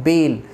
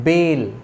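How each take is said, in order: Both takes have the same delivery.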